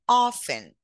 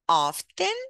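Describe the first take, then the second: First: The T sound is silent in the middle. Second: The T sound is pronounced in the middle.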